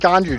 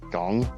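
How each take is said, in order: First: The word is two syllables, ending in 'joo'. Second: The word is one syllable, rhyming with tongue. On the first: The speaker calls it wrong. "you just choose to say something incorrectly because it's funny" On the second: The speaker calls it right. "Pronounced like tongue"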